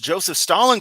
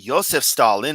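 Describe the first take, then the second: First: The name is said the usual English way. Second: The name is said closer to native pronunciation. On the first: "You seem to pronounce Joseph Stalin correctly" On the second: "it's more correctly Joseph Stalin"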